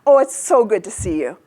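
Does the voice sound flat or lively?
lively. It is lively, with big pitch changes. The speaker is really happy.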